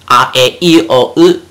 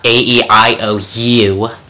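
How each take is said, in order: First: The vowels sound like short, pure Japanese vowels. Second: The vowels sound like English letter names. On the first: The speaker calls it right. "It's A E I O U" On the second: The speaker calls it wrong. "So it's not A E I O U"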